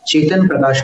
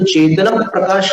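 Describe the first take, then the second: First: The final vowel of 'chetan' is dropped. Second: The final vowel of 'chetan' is fully pronounced. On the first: The speaker calls it right. "चेतन प्रकाश बोलते हैं" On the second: The speaker calls it wrong. "उनको चेतन प्रकाश नहीं बोलते"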